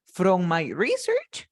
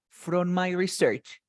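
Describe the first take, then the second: First: "From my research" slowly, with RE-search stressed at the front; "research" with a strong RE, questioning lift at the end; noun stress. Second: "From my research" slowly, with re-SEARCH stressed at the end; "research" with weight on SEARCH, falling tune; verb stress. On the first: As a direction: slowly offer "From my research" as a first option, RE-search, rising at the end. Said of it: "As a noun". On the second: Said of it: "As a verb". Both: Shown as a demonstration.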